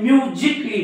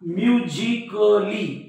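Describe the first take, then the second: First: The vowel before the final -ly is silent. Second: The vowel before the final -ly is pronounced. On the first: The speaker calls it right. "म्युझिकली म्हणजे एचा उच्चार होत नाही" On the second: The speaker calls it wrong. "तर चुकीचं होईल ते"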